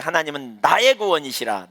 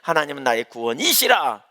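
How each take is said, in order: First: The stress falls on the words 나의 구원. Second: The stress falls on the word 이시라. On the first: God saves me rather than judging me. "나의 구원을 강조하면" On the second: God himself is salvation, not just its giver. "이시라를 강조하잖아요"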